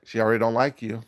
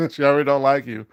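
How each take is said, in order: First: Said in the usual way. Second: Louder and higher, laughing tease; loud teasing. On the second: Real, not acted. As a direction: push the repeat up with a laugh.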